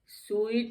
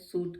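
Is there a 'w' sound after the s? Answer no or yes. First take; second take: yes; no. First: It has a 'w' glide and an 'ee' vowel. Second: It has a plain 'oo' vowel with no glide. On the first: The speaker calls it wrong. "स्वीट नहीं कहते हैं" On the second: The speaker calls it right. "सूट कहते हैं"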